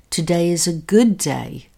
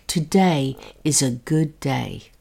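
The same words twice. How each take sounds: First: The stress is on "good". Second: The stress is on "today".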